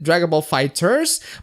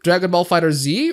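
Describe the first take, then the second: First: The last word is said as 'Fighters'. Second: The last word is said as 'Fighter Z'. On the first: The speaker calls it right. "It is pronounced Fighters" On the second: The speaker calls it wrong. "My friend said that it's Fighter Z"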